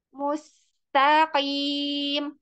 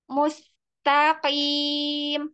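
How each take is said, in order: Both takes have the same delivery.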